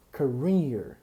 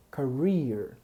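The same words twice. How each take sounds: The two takes are said the same way.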